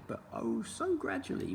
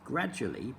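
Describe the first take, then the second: First: Oh so gradually, the so stretched and sung high; lingering, high so in gradually; stress on so. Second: Said in the usual way. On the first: A narrator's reading.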